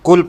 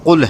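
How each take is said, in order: First: It begins with a plain front K sound. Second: It begins with a deep throat Q sound. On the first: The speaker calls it wrong. "कुल पढ़ोगे तो ये माना गलत हो जाएगा" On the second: The speaker calls it right. "कौफ है, काफ नहीं है"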